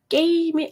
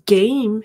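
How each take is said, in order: First: It is said with Korean-style sounds. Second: It is said with English sounds and a voiced g. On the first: The speaker calls it wrong. "게임이 아닌 거죠" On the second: The speaker calls it right. "Game 해야 되지"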